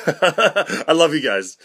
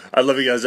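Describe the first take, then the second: First: Slow, laughing through the words. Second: Said in the usual way. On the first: Pretend. Telling his parents he loves them, laughing.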